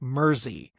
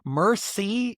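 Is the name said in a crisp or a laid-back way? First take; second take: laid-back; crisp. First: The name is said in a relaxed, laid-back way. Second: The name is said crisply and carefully. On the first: The speaker calls it right. "It's more like Mersey, is how they say it. just a little more, you know, laid back" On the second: The speaker calls it wrong. "Mersey is not exactly right"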